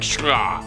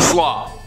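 First: The word begins with an SH sound. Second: The word begins with a plain S sound. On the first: The speaker calls it right. "It's probably something more like shlaw" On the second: The speaker calls it wrong. "almost certainly I am pronouncing that name wrong"

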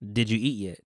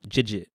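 First: Each word is said separately and in full. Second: The words are run together into one word.

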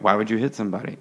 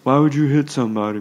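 First: It is said in a natural speaking voice. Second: It is said in a put-on imitating voice. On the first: The speaker calls it right. "Most people were like" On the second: The speaker calls it wrong. "Not in that voice"

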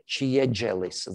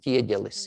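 First: The consonants sound like ch and j. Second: The consonants are soft palatal stops. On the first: The speaker calls it wrong. "It's not exactly chiegelis. That would be wrong" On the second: The speaker calls it right. "It is chiegelis"

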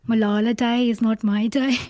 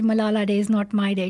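First: It is said in a Birmingham accent. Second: It is said in her usual accent.

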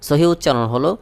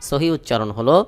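Both takes have the same delivery.

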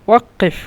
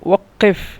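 Both takes have the same delivery.

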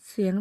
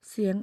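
No difference in how they are said.

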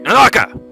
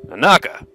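First: The name is shouted loudly, with much more force. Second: The name is called out weakly, with little force.

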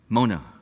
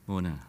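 First: It is said in a confrontational, fighting tone. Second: It is said in a gentle, friendly tone.

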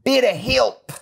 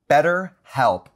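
First: It is said in an Australian accent. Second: It is said in the speaker's usual accent.

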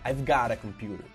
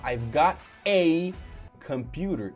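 First: The article is a quick, reduced 'uh'. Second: The article is a full, careful 'ay'.

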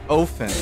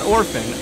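First: The name is said without an R sound. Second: The name is said with an R sound. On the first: The speaker calls it right. "it's Ophin" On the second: The speaker calls it wrong. "not Orphan"

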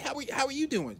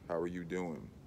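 First: It is said in a timid, nerdy put-on voice. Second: It is said in a relaxed, confident, cool voice. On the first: The speaker calls it wrong. "you walk up talking like you fucking Steve Urkel from Family Matters" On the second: The speaker calls it right. "It's just a lot more cool"

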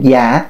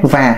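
First: The word starts with a plain y sound. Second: The word starts with a clear buzzing v. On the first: "nghe sơ sơ thì là ồ đúng đúng Nam Kỳ, nhưng thì cũng không trúng luôn" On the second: "nó chặt lắc, à nó không có trúng người Nam Kỳ"

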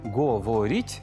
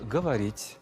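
First: The unstressed vowel sounds like a clear o. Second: The unstressed vowel sounds like a. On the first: This is how the word is written. "пишуть «говоріть»" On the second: This is how the word is actually pronounced. "а вимовляють «говоріть»"

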